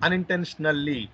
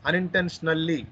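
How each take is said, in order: Both takes have the same delivery.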